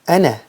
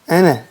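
Both takes have the same delivery.

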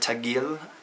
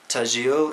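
First: The middle consonant is a hard g sound. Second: The middle consonant is a soft j sound. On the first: This is how other speakers say it. "depending on the pronunciation" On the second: This is how the speaker's region says it. "In my region, G becomes a J"

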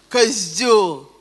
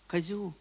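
First: The word is said with an insulting, emotional tone. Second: The word is said in a flat, neutral tone. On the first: The speaker calls it right. "говорить надо только с определенной интонацией" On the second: The speaker calls it wrong. "вы не можете сказать «козел»"

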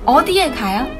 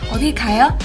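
First: The word 'eodi' is said with strong emphasis. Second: The word 'eodi' is said lightly, without emphasis. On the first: The speaker really wants to know the destination. "người ta sẽ nhấn mạnh từ đi" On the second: It is just a casual greeting. "nếu mà chào nhá thì người ta sẽ nói sự đi nhẹ nhàng hơn"

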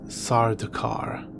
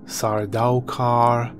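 First: The middle syllable sounds like 'da'. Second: The middle syllable sounds like 'dow'. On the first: The speaker calls it right. "but it is Sardakar, as pronounced by Frank Herbert" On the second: The speaker calls it wrong. "I've heard Sardaukar"

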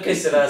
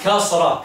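First: First vowel is e, with an extra middle vowel. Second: First vowel is a, with no middle vowel. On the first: The speaker calls it wrong. "Ce n'est pas kessera" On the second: The speaker calls it right. "c'est kasra"

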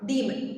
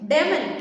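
First: The first vowel is a long, stressed 'ee'. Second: The first vowel is a short 'e'. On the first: The speaker calls it right. "ആ ഈയിൽ നമ്മളൊരു stress കൊടുക്കണം" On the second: The speaker calls it wrong. "ഡെമൻ എന്ന് pronounce ചെയ്യാനുള്ള ഒരു tendency കാണിക്കും"

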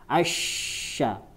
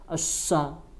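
First: The consonant is an sh sound. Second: The consonant is a plain s sound. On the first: The speaker calls it right. "keluar anginnya lewat lidah bagian tengah" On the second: The speaker calls it wrong. "masih ujung lidah"

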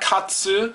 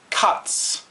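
First: The final vowel is fully pronounced. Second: The final vowel is nearly silent. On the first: The speaker calls it wrong. "it's not katsu, the su is silent" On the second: The speaker calls it right.

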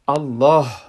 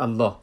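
First: The word ends with an audible breathy h. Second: The word ends on the vowel without h. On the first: The speaker calls it right. "باید او رو درست تلفظ کنیم" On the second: The speaker calls it wrong. "الله رو نامش در الف لام الف لا استاد میکنه که اشتباه است"

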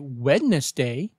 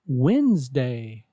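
First: The word is said with the middle D sounded, like 'Wed-nes-day'. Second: The word is said without the middle D, like 'Wenz-day'. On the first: The speaker calls it wrong. "Don't say Wednesday" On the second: The speaker calls it right. "Be sure to say Wednesday"

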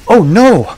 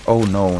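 First: It is said dramatically, with strong feeling. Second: It is said flatly, with little feeling. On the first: The speaker calls it right. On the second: The speaker calls it wrong.

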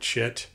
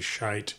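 First: The vowel sounds like the one in bit. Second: The vowel sounds like the one in bite. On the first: This is how Americans say it. "Americans will call it shit" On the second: This is the original German pronunciation. "I think the correct pronunciation is actually Shite from Germany"

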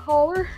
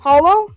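First: The word ends in an 'er' vowel sound. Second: The word ends in an 'oh' vowel sound. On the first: The speaker calls it wrong. "not Holler" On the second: The speaker calls it right. "or Holo"

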